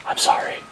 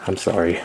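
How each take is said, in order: First: Whispered apology. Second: Said in the usual way. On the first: Real, not acted. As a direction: breathe the apology with no voice.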